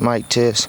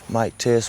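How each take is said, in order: First: The voice is recorded at a middle level. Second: The voice is recorded at the lowest level. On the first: "This is a plus six gain" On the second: "This is at zero gain reduction"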